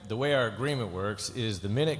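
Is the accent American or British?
American. It is read in the speaker's usual accent. "I'm just playing the exact same way that we did it"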